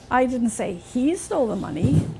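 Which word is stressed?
he. The word 'he' carries the main stress. Someone else took it. "Somebody else must have taken it, not him"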